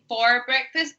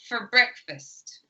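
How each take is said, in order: First: The word 'for' is said fully and clearly. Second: The word 'for' is squished into the next word. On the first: The speaker calls it wrong. "we're not saying for breakfast" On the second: The speaker calls it right. "but for breakfast. And we squish it together"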